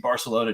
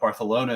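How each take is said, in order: First: The c is sounded as s. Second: The c is sounded as th. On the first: The speaker calls it wrong. "said it wrong the second time" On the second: The speaker calls it right. "you said it the correct way the first time"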